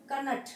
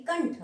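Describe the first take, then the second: First: कनठ with a full vowel after K and N; wrong pronunciation. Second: कंठ with N run straight into TH; correct pronunciation. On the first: Teacher showing students the misspelt word, कनठ in separate syllables. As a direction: say कनठ as "ka-nath". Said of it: "ये नहीं है". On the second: Teacher giving students the proper word, कंठ as one syllable. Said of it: "यानी कंठ". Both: Shown as a demonstration.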